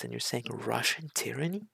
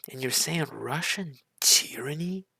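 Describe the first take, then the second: First: Said in the usual way. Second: Louder, stressing saying, with a breathy rise; can you believe this, pushed harder on saying; incredulous repeat. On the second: Real, not acted. Reacting to a speech, incredulous again.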